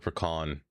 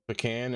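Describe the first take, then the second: First: The last syllable sounds like the end of leprechaun. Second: The last syllable has a drawn-out A sound. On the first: "put a U in there for pecan. Like leprechaun" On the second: "put more A's for pecan"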